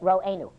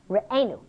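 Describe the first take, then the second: First: The first vowel sounds like 'o'. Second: The first vowel sounds like 'e'. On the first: The word names God as our shepherd. The speaker calls it wrong. "Some people read it Ro'enu, our shepherd" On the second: The word asks God to shepherd us. The speaker calls it right. "The proper way to read it is Re'enu, shepherd us, as a request from God"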